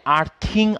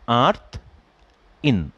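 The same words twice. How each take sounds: First: আর্থিং run together as one word ending in -ing; wrong pronunciation. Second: আর্থ ইন said as two parts, আর্থ then ইন; correct pronunciation. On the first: Teacher imitating students who say আর্থিং wrongly. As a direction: say আর্থিং slowly as the common mistake. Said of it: "আর্থিং না কিন্তু". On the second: Teacher showing students the right way to say আর্থ ইন. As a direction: split it clearly: আর্থ, pause, ইন. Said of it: "উচ্চারণটা হচ্ছে আর্থ ইন". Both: Shown as a demonstration.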